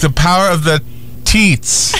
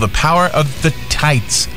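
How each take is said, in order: First: The last word sounds like 'teats'. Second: The last word sounds like 'tights'. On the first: The speaker calls it right. "Yes, teats" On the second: The speaker calls it wrong. "you're pronouncing it wrong"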